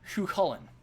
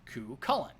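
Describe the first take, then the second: First: The name begins with a strong H sound. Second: The name begins with a hard K sound. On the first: "putting a lot of emphasis on an H" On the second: "Some say the name as Cu Cullen"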